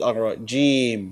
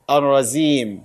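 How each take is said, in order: First: A j sound comes before the final m. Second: A z sound comes before the final m. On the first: The speaker calls it right. "He said Ar-Rajim" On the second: The speaker calls it wrong. "Rasulullah did not say Ar-Razim"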